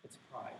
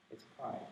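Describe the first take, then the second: First: Soft, low statement of pride; hushed voiced pride; quiet pride. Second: Breathy whisper of the word pride; a hushed repeated pride. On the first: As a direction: say it quietly and let it land. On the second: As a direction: whisper it like a confession. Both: Shown as a demonstration. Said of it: "the answer is obvious, isn't it?".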